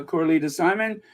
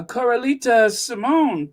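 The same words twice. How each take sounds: First: "Simon" as SIGH-mun, stress on the first syllable; "Simon" with an unstressed, short last syllable; name said as Simon. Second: "Simone" ending like "moan", stress on the second syllable; "Simone" with a long O in the stressed last syllable; name said as Simone. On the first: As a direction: say "Simon" with a long I up front. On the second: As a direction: say "Simone" as si-MOAN, higher and louder. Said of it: "uh, Coralita Simon". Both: Real, not acted.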